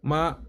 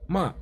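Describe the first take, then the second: First: It is said with a steady first tone. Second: It is said with the fourth tone. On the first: "the first dot is the steady tone" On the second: "Fourth tone"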